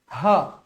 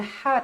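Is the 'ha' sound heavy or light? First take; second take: heavy; light. First: The 'ha' is said thick and heavy. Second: The 'ha' is said thin and light. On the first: The speaker calls it right. "Bila tebal, ha" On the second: The speaker calls it wrong. "Jangan ha tak nak"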